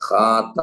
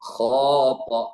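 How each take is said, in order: First: The first syllable sounds light and thin. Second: The first syllable sounds heavy and full-mouthed. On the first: The speaker calls it wrong. "ഖാത എന്ന് പറഞ്ഞാൽ തെറ്റി" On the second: The speaker calls it right. "ഇതാണ് വായ നിറയുക എന്ന് പറയുന്നത്"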